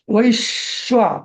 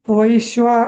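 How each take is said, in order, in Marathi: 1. जोडाक्षरावर जोरदार दाब द्यायचा. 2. जोडाक्षर हलकं म्हणायचं, दाब न देता. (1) "असं म्हणायचं" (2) "असं हलकं नाही म्हणायचं"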